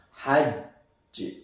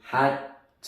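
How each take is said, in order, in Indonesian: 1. Huruf j ganda di akhir ditahan dulu sebelum dipantulkan. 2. Huruf j ganda di akhir dipotong pendek. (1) "Harus ditahan dulu yang sempurna" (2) "nggak boleh"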